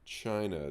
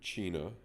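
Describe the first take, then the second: First: The word has an English pronunciation. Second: The word has a Spanish pronunciation.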